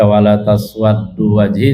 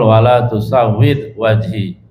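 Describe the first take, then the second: First: The verb begins with ta and doubles the d. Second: The verb begins with tu and doubles the w. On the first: The speaker calls it wrong. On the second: The speaker calls it right. "yang betul"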